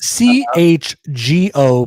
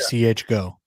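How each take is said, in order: First: Every letter is spelled out separately. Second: The last two letters are said as one word. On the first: The speaker calls it right. "It's C H G O" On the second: The speaker calls it wrong. "Please do not say C H go"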